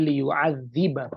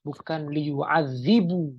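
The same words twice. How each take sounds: First: Liyu'adziba said slowly, ending clearly in a; slow correct liyu'adziba with a final a; right ending shown. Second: Liyu'adzibu said slowly, ending in u, as the wrong form; slow contrast of liyu'adzibu with a final u; wrong ending shown. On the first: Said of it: "tapi liyu'adziba". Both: Shown as a demonstration.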